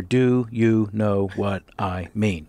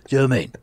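First: Said in the usual way. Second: "Do you mean?" squashed to two gruff syllables, "Joe mean"; Statham mumble. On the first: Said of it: "The six words he says in a row are". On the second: Shown as a demonstration. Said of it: "Which he says as".

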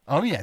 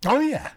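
First: Said in the usual way. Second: High rising Oh, yeah with yeah lifted up; eager yeah. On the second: Real, not acted. Answering the host's question, an eager rising Oh, yeah. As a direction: throw out yeah with a bright upward lift.

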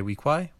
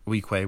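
First: Weequay ending in "kwai", higher questioning tune; Weequay, final vowel as in "why", asked; WEE-kwai. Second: Weequay ending in "kway"; Weequay, final vowel as in "way"; WEE-kway. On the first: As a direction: say Weequay with the last syllable rhyming with "eye". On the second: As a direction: say Weequay with the last syllable rhyming with "day". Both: Shown as a demonstration. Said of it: "just the pronunciation".

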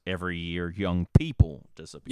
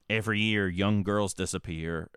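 First: "people" louder with a rising end; stress on people. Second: Said in the usual way. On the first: Retold or imitated. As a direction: push "people" up and loud. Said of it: "the other one is". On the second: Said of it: "One says".

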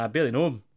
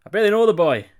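First: Said in the usual way. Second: Higher and louder take with THE stressed; louder, higher retort. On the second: Shown as a demonstration. Co-host jokes about knowing [name], louder higher retort. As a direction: say "I barely know the boy" louder and higher.

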